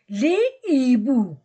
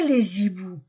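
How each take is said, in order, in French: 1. « les » et « hiboux » se disent sans liaison. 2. Un son z relie « les » à « hiboux ». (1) "je ne fais pas liaison" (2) "je ne dis pas"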